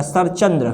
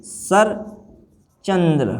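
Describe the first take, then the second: First: सरचंद्र run together with single ch; wrong form. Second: सरचंद्र very slowly in two separated parts; long pause between सर and चंद्र in सरचंद्र; correct form. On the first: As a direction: say सरचंद्र as sar-chandra, unbroken. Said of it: "ये गलत है भैया". (सरचंद्र एक साथ, अकेला च) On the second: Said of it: "क्या आना चाहिए". (सरचंद्र को बहुत धीरे, दो हिस्सों में) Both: Shown as a demonstration.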